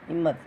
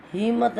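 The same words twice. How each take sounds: First: हिम्मत with the short vowel and doubled म clearly sounded; correct pronunciation. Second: हिम्मत said the mistaken way, as written; wrong pronunciation. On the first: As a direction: say हिम्मत with a short इ and a held म्म. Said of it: "हाँ में छोटे की आवाज़ आ रही है". (सही उच्चारण हिम्मत) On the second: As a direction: say हिम्मत the wrong way to show the error. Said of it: "हिम्मत नहीं होता". (गलत उच्चारण हिम्मत) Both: Shown as a demonstration.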